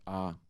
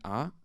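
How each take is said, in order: First: The vowel is held on a level mid pitch. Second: The vowel starts high and rises higher. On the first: "no marking at all means mid-tone" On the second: "an acute accent means um, um, high rising tone"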